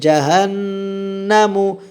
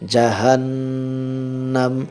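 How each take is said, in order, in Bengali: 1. শব্দটি হ্রস্ব 'u' স্বরধ্বনি দিয়ে শেষ হয়। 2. শব্দটি খালি 'm' ধ্বনি দিয়ে শেষ হয়। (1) "এখানে মিমের উপরে পেশ" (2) "পেশে ওয়াকফা করলে পেশ পড়ে যাবে, মিমটা জজম হয়ে যাবে"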